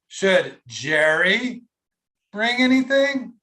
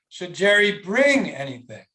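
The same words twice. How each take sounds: First: The emphasis falls on the word Jerry. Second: The emphasis falls on the word bring. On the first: "Was it on Jerry" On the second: "or was it on bring?"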